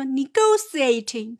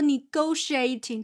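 First: It is said in a posh upper-class accent. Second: It is said in a plain, normal accent.

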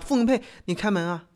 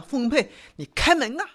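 First: It is said mildly, without pushing down. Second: It is said fiercely, pushed down forcefully.

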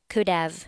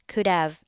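The two takes are said the same way.

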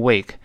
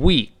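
First: The vowel is an 'ay' sound. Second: The vowel is a long 'ee' sound. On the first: The speaker calls it wrong. "好多同学读成wake" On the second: The speaker calls it right. "而星期呢读成week"

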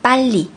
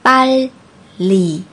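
First: It is said fast. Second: It is said slowly.

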